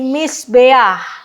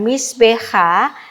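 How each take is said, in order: First: The word ends with a vowel then an h. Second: The word ends with an h then a vowel. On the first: The speaker calls it right. "tetapi misbeah" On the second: The speaker calls it wrong. "bukan misbeha"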